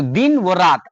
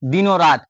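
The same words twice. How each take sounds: First: दिन व रात with व as a separate "wo"; word-by-word reading. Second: दिनों रात with "o" fused onto din, "dino raat"; joined reading. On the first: Teacher shows an unfamiliar reader's version, words unlinked. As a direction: keep दिन, व, रात apart. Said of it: "तो वो क्या पढ़ेगा इस वर्ड को?". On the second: Teacher explains for understanding, linking the words. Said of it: "दिनों रात भी लिख दिए हैं". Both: Shown as a demonstration.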